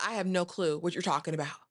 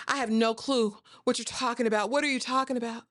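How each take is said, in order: First: Lightly acted, even-toned denial; understated denial. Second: Higher-pitched, acted-out denial; feigned innocence. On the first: Bertha denies knowing about the Duke, understated denial. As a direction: play it cool and unruffled. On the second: Bertha repeats her denial to her husband, feigned innocence. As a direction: protest cluelessness in a raised pitch.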